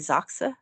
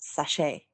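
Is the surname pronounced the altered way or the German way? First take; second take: German; altered. First: The surname is pronounced the original German way. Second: The surname is pronounced the altered family way. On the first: This is the name's original pronunciation. "it would normally be Zoxa" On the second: This is the pronunciation adopted for the family. "decided just to start for his kids' sake that it would be pronounced sachet"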